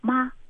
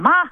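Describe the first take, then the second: First: It is called out warmly, with feeling. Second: It is called out hard and straight.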